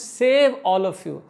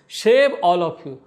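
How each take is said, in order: First: The first word begins with a plain s sound. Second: The first word begins with an sh sound. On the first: This is the intended wording. "Prabhupada कहना चाहते थे" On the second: A heavy regional accent turns the word into another one. "वो स शर बोलते थे"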